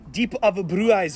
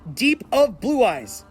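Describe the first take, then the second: First: It is said with an English pronunciation. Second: It is said with a Japanese pronunciation. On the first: "if you want to pronounce it in English" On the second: "The name of this card in Japan is"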